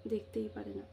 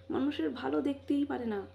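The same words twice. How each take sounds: First: Softer, lower bitter repeat of দেখতেই; a muttered bitter afterthought; quiet bitter echo. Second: Said in the usual way. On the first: Real, not acted. Bitter repeat, dropped low.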